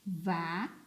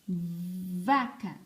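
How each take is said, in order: First: "Vaca" split into va and ca; syllable by syllable. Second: "Vaca" as one word with a long buzzing v; held first sound. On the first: Teacher looking for the missing syllable, "Vaca" broken in two. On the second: Teacher naming the picture, "Vaca" whole with held v. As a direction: hold the v, then finish "Vaca". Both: Shown as a demonstration. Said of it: "A primeira sílaba".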